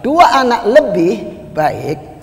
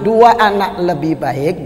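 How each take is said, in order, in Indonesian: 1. Ada jeda setelah 'lebih', sebelum 'baik'. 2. Ada jeda setelah 'anak', sebelum 'lebih baik'. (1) "berarti yang baik itu yang lebih dari" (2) "jadi yang lebih baik itu dua"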